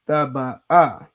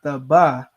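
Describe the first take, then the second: First: The word ends with a clear final 'ah' vowel. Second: The word ends without a final 'ah' vowel. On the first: The speaker calls it right. "you have to say the ah" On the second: The speaker calls it wrong. "It's not thaba"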